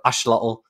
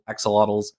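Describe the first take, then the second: First: The middle consonant is an 'sh' sound. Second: The middle consonant is a 'ks' sound.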